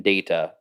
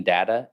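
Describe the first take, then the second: First: Data as DAY-tuh; data, opening like the word day; long-a data. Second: Data as DAT-uh; data, opening like the word dad; short-a data. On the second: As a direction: say data with the a of cat. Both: Shown as a demonstration. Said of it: "arbitrarily switch between data and data".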